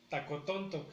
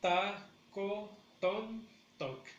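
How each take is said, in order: First: Said in the usual way. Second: "Tacotontoc" as ta, co, ton, toc; very slow, higher, a gap after every syllable. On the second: Shown as a demonstration. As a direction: break "Tacotontoc" into four beats for learners. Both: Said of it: "el acento lo tenemos en la tercera".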